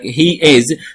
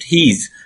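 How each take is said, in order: First: Both words are said fully and separately. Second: The two words merge into one syllable. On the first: "not he is" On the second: "native speaker, they pronounce it he's"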